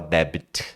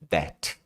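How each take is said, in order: First: A B sound is pronounced in the middle. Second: The B is silent and the word has one syllable. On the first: The speaker calls it wrong. "Você não vai falar debit" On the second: The speaker calls it right. "é B mudo"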